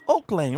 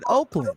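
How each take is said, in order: First: The name is said as two words, Oak Lane. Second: The name is run together, like Oakland. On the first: "It's Oak Lane, right?" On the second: "why do you pronounce it Oakland?"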